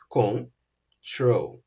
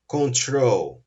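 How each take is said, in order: First: "control" split slowly into con and trol; syllable by syllable. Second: Said in the usual way. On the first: Shown as a demonstration. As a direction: say "control" in two separate beats, con, then trol. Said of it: "Eu tenho duas sílabas".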